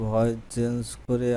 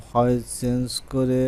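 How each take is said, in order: Both takes have the same delivery.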